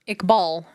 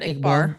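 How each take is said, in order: First: The name ends with an l sound. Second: The name ends with an r sound. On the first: The speaker calls it right. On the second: The speaker calls it wrong. "not Iqbar"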